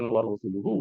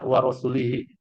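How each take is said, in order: First: The ending after 'rasul' uses u vowels. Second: The ending after 'rasul' uses i vowels. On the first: God and his messenger are both free of idolaters. The speaker calls it right. "ditulis dengan wa Rasuluhu" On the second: God would be free of idolaters and of his messenger. The speaker calls it wrong. "dibaca wa rasulihi ... salah dibaca"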